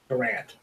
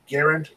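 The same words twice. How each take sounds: First: It is said not rhyming with errand. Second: It is said to rhyme with errand. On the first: The speaker calls it wrong. "instead of" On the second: The speaker calls it right. "like errand"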